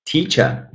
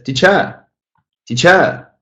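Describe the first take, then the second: First: Said in the usual way. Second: "teacher" stressed on the end, tea-CHER, rising high; wrong stress. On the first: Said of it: "The same thing goes to". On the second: Shown as a demonstration. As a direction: push the second syllable of "teacher" up. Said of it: "that wrong stress".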